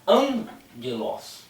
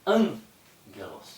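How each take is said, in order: First: It is said with an n before g. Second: It is said with an n before g.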